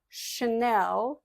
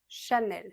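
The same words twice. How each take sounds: First: One syllable is given strong stress. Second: Both syllables are said evenly, without stress. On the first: The speaker calls it wrong. "C'est pas Chanel, non" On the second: The speaker calls it right. "c'est plat en français, il n'y a pas d'accent"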